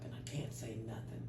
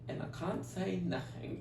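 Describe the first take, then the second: First: It is said in a Southern American accent. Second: It is said in a British accent.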